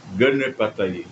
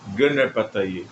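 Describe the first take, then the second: Both takes have the same delivery.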